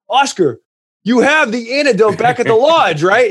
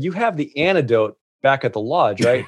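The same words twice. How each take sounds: First: Higher and louder, urgently asking again; alarmed repeat. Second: Half-laughing, uneasy check about the antidote; nervous laughing question. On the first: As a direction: push the question up in pitch and volume. Panicked repeat about the antidote. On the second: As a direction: ask it with a nervous little laugh. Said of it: "laughed nervously". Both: Retold or imitated.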